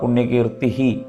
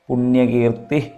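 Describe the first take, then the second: First: The word ends with an echoed 'hi' sound. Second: The word runs straight into the next word. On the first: The name is said on its own. "പുണ്യകീർത്തി ഹി എന്ന് ഉച്ചരിച്ചാലും ശരിയാണ്" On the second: The name is recited as part of the verse. "പുണ്യകീർത്തി പുണ്യലഭ്യ എന്ന് ഉച്ചരിക്കാവും കുറച്ചുകൂടി എളുപ്പം"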